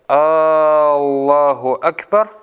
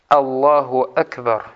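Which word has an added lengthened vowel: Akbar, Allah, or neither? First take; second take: Allah; neither. First: An extra vowel is added at the start of Allah. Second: Both words are said short, with no added vowel. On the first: It turns the phrase into a question: is Allah the greatest? The speaker calls it wrong. "добавляют слово «Аллаху Акбар», «Аллах», «Хамзу». И у них получается так" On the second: It states that Allah is the greatest. The speaker calls it right. "Коротко. Так оно является правильным"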